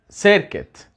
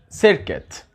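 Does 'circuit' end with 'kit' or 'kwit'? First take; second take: kit; kit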